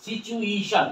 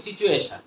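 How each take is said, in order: First: সিচুয়েশন as "si-chu-EI-shan", higher and drawn out; corrected pronunciation. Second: সিচুয়েশন run together as "si-chu-e-shan"; common mispronunciation. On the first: Teacher corrects the usual form, careful higher-pitched pronunciation. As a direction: model সিচুয়েশন with a long "ei" glide. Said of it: "এটা কি হবে?". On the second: Teacher cites what we usually say, mistaken pronunciation. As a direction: say সিচুয়েশন quickly with a plain "e". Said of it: "আমরা কি বলি?". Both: Shown as a demonstration.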